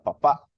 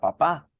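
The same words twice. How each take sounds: First: The word ends with a glottal catch. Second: The word ends on an open stressed vowel. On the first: "Si yo glotalizo la palabra papá como que si fuera quiché, diría papá" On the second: "no diría papá, como decimos en español"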